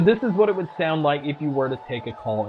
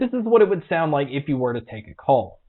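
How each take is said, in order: First: The voice is heard over background crowd noise. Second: The voice is heard without background crowd noise.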